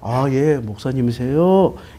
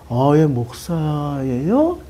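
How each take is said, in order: First: It sounds polite and respectful. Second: It sounds doubtful and dismissive.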